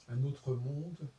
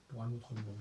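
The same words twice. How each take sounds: First: "autre" drawn out, very slow; slow stressed title. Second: Said in the usual way. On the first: Shown as a demonstration. Recalling the debate's title, slow and deliberate. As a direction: spell out the title word by word, leaning on "autre". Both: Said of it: "le titre, c'était".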